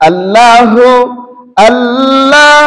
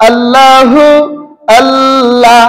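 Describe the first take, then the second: The two takes are said the same way.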